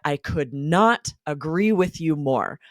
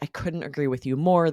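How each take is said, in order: First: The word not is separate and stressed. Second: The negative is contracted and unstressed. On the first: Even stronger, more emphatic agreement. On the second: Strong agreement.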